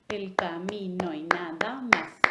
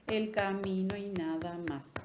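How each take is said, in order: First: Slow, "más" stretched over an extra silent beat; showing the silent eighth beat after "más", slow; syllables on the beat, one beat held. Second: Said in the usual way. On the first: Shown as a demonstration. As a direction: tap "El camino y nada más" with a held pause after "más". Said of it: "¿Por qué hice un golpe más?". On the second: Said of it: "mi última palabra no estuvo en el último golpe".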